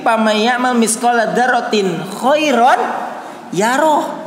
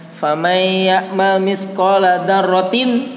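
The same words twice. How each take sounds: First: Continue through "dzarratin" to "khairan" without stopping, rising at "yarah"; no break until "khairan yarah"; correct pause. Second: Berhenti salah setelah "dzarratin", dilagukan pelan; wrong pause. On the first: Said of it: "Itu komanya jangan di sana". (jeda yang benar setelah "khairan") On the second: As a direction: recite it slowly and stop right after "dzarratin". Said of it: "Nah, jangan di sana". (jeda yang salah setelah "dzarratin") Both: Shown as a demonstration.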